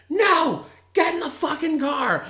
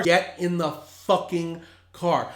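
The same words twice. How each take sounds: First: Yelling at the top of lungs; furious shout. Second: Slow, firm, each word spelled out; slow firm demand. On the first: Yelling at drunk brother. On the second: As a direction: lay down the law slowly. Repeated command, slower. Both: Retold or imitated.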